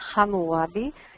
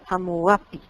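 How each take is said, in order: First: The name begins with a G-like sound. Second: The name has a P sound near the end. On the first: This is the Hebrew pronunciation. "se pronuncia en hebreo con la letra G" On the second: This is how it appears in other languages. "en otros idiomas aparece con P"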